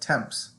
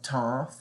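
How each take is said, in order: First: The final consonants are pronounced aloud. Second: The final consonants are left silent. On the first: The speaker calls it wrong. "you'd think it'd be like temps or something" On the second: The speaker calls it right. "the ending consonants aren't pronounced"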